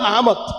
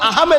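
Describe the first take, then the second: First: The name ends with a 'mod' sound. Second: The name ends with a 'med' sound. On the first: The speaker calls it right. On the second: The speaker calls it wrong. "আহমেদ নয়"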